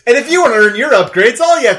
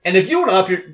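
First: Fast, loud announcer hype; loud hype pitch. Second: Tripping over the words; botched fumbling delivery; stumbled line. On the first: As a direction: punch it out like an ad read. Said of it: "We built up that whole bit". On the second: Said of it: "you stumbled on the third fucking syllable". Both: Acted.

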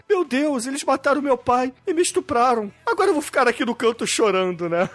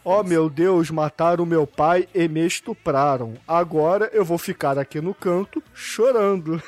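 First: Wooden bad acting. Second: Slow, flat machine voice, mocking; robotic text-to-speech. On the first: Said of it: "não consigo atuar como eles". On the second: Mocking the girl's line as a text-to-speech voice. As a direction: read it like a Google Translate voice. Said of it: "A entonação é a mesma".

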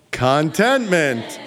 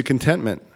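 First: "Contentment" very slowly, with a full CON as in "content"; Contentment drawn out as a name. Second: Said in the usual way. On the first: Shown as a demonstration. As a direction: stretch "Contentment" into CON-TENT-MINT, leading a group chant. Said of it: "Say it all together". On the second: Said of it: "if you say it really fast".

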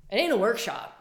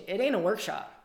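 First: "ain't" hit harder and louder; emphatic repeat. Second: Said in the usual way. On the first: Shown as a demonstration. To her listeners insisting on the challenge, emphatic "ain't". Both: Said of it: "I'm just telling you".

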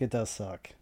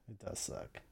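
First: Said in the usual way. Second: It does suck whispered, unvoiced. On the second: Shown as a demonstration. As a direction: breathe it does suck under the breath. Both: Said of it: "repeated softer".

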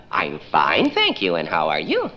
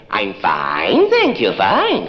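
First: Lilting fine thank you, pitch dropping then leaping; sing-song fine. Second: Same words with a weary edge; exasperated fine. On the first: Caller humoring a toddler, sing-song. Caller answers child's question. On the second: Caller stuck answering a toddler, exasperated. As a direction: repeat it more tired. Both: Acted.

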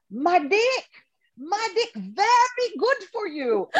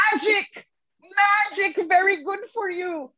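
First: Put-on high Balinese-accented old man, slower at the end; Ketut's thick Balinese accent, pitched high and slow; imitating Ketut. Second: High, clear correction with a Balinese lilt; high Balinese-accented correction; imitating the partner. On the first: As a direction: savour each word like a proud old priest. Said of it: "And he says". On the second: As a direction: sound out the word carefully, relieved. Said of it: "and then goes".

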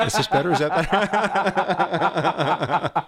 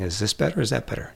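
First: Hammed-up eye doctor asking again, slowing into laughter; mock optometrist, higher and laughing. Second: Said in the usual way. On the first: The optometrist boyfriend quizzing his date, higher and laughing. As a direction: pitch it higher, slower, breaking into a laugh. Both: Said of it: "All the time he's saying".

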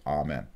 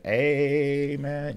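First: Said in the usual way. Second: High sustained "Amen" with ay-men vowel, em-AN; wrong amen. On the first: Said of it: "You say". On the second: Shown as a demonstration. Teacher shows students the wrong way. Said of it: "You don't say".

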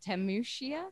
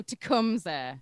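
First: Temushia said with a sh sound, unsure and questioning; mispronounced place name. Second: Tecumseh with a hard k, te-KUM-suh; corrected pronunciation. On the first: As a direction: stumble into Temushia, rising at the end. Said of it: "I'm gonna say this wrong". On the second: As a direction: land on Tecumseh loudly, having just got it. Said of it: "It's Tecumseh". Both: Real, not acted.

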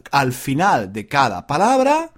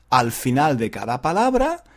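Both takes have the same delivery.

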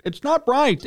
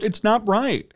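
First: "not" pushed up higher and hammered home; stress on not. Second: Said in the usual way. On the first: Real, not acted. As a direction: hit "not" hard the second time.

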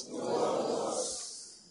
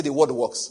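First: Whispered very softly and slowly. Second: Said in the usual way. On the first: Shown as a demonstration. Preacher repeating the church's line back in a slow whisper. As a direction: breathe The word works in a slow hush. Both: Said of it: "Somebody say".

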